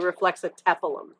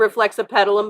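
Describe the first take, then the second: First: The middle sounds like 'atepal'. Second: The middle sounds like 'apetal'. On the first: The speaker calls it right. "It's actually" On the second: The speaker calls it wrong. "by accident"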